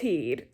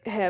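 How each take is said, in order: First: The vowel is a long 'ee' sound. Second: The vowel is a short 'eh' sound. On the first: "like it should be pronounced heed" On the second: "like head like this"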